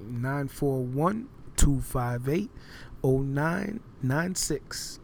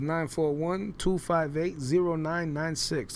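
First: The number is said slowly. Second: The number is said at normal speed.

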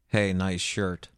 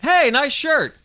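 First: It is said with low energy. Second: It is said with high energy.

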